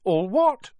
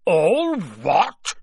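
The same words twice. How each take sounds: First: Put-on high, rising boy's question; puzzled boy. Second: Loud, raised, drawn-out roar; thundering. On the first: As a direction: ask in a higher boyish voice, puzzled. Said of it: "asked Harry". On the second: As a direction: thunder it back in outrage. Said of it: "Hagrid thundered". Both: A narrator's reading.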